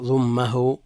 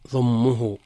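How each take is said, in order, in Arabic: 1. تلي الميم حركة الفتحة. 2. تلي الميم حركة الضمة. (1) "ومع فتحها" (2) "مع ضم الميم"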